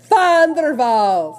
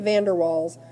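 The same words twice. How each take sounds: First: It begins with an F sound, Dutch style. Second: It begins with a V sound, English style. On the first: The speaker calls it right. "the V has an F sound, ... the W has a distinct V sound, so that's Van der Waals" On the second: The speaker calls it wrong. "It looks like Van der Waals"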